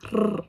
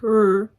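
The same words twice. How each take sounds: First: The R sound is rolled. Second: The R sound is plain, not rolled. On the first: The speaker calls it right. "it's like R. Like, you need to roll that R" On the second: The speaker calls it wrong. "it's not like R"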